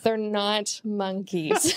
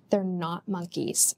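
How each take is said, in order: First: It is said louder, with more force. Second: It is said at normal volume.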